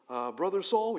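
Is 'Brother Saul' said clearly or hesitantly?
hesitantly. It is said hesitantly, in a nervous, joking way. The greeter is afraid of the one greeted. The speaker calls it wrong. "That might be the humor side of it. But I don't think he said it with hesitation"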